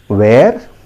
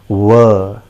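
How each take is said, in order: First: It is said sounding like the word 'where'. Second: It is said sounding like the word 'were'. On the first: The speaker calls it wrong. "that is a wrong pronunciation" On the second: The speaker calls it right. "The correct pronunciation is were"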